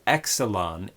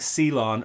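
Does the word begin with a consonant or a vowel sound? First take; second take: vowel; consonant. First: The word begins with an added vowel sound. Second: The word begins with a consonant cluster. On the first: The speaker calls it wrong. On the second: The speaker calls it right.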